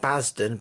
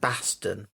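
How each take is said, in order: First: The middle consonant sounds like a z. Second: The middle consonant sounds like an s. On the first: The speaker calls it wrong. "Not Basden" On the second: The speaker calls it right. "No Z"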